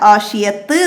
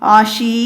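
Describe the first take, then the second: First: The word ends on a t sound. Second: The word ends on a long ee vowel. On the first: "ആഷിയത്ത് എന്ന് പറഞ്ഞിട്ട് നമ്മൾ വഖഫ് ചെയ്യൂല" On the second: "ഈ ആഷീ എന്ന് പറഞ്ഞ് വഖഫ് ചെയ്യൂല"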